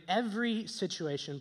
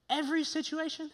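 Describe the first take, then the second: First: Said in the usual way. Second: High, questioning mock disbelief; incredulous. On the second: Preacher challenging Paul on his demand, incredulous. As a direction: query it as if it asks too much.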